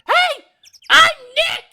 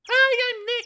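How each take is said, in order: First: It is said more loudly. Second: It is said fairly quietly.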